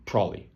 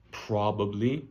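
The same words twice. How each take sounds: First: "probably" squeezed short, like "prolly"; quick, slurred-together "probably"; casual reduced pronunciation. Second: "probably" slowly, with all three syllables and a rise; slow, fully pronounced "probably", pitched up at the end; careful full pronunciation. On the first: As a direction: run "probably" together quickly, with a falling end. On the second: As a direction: sound out every syllable of "probably". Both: Shown as a demonstration. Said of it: "I say exactly".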